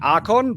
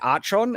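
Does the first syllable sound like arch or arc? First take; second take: arc; arch. First: The first syllable sounds like arc, hard k. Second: The first syllable sounds like arch, ch sound. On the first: The speaker calls it right. "it should be archon" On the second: The speaker calls it wrong. "they say archon, and archon sounds awful"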